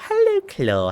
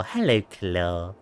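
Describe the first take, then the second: First: Very high squeaky greeting; squeaky high hello. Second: Slow, low, quiet drawn-out greeting; low slow hello. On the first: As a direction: pipe it up high like a cartoon. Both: Pretend. Greeting in a put-on voice.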